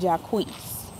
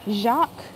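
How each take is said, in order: First: The name ends with an added 'ee' sound. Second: The name ends without an added 'ee' sound. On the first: The speaker calls it wrong. "[name]' mama named him [name]" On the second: The speaker calls it right. "the traditional spelling and pronunciation of that name is Jacques"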